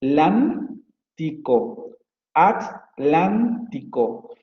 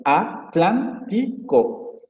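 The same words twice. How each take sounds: First: Atlántico, slowly split as A-tlán-ti-co with tl together; teacher showing how Mexican Spanish splits Atlántico; A-tlántico split. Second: Atlántico, slowly broken into Spanish syllables At-lán-ti-co; Spanish-speaking teacher dividing Atlántico the Spain way; syllable-split Atlántico. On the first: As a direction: say Atlántico keeping the tl cluster in one syllable, slowly. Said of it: "Ellos dividirían". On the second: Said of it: "se divide en sílabas como Atlántico". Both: Shown as a demonstration.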